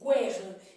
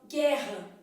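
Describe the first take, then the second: First: A rounded u sound follows the g. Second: The u after the g is silent. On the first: The speaker calls it wrong. "E nada de" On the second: The speaker calls it right. "esse U não é pronunciado"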